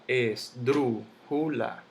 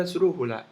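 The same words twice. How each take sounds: First: Esdrújula split as es-drú-ju-la; syllable by syllable. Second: Said in the usual way. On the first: Shown as a demonstration. Teacher sounding out the word for students, slow separate syllables. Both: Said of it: "La misma palabra esdrújula".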